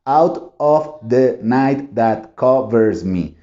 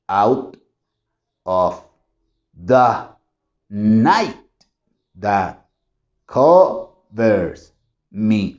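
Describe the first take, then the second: First: It is read a little faster, still stiffly. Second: It is read slowly, syllable by syllable. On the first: "Lo hice un poquito más veloz" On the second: "realmente ahí no hay ritmo"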